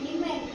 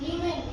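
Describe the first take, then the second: No difference in how they are said.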